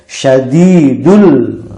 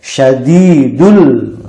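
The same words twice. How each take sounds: First: The long vowel is lengthened only slightly. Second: The long vowel is lengthened only slightly.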